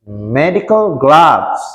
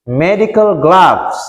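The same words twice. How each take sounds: The two takes are said the same way.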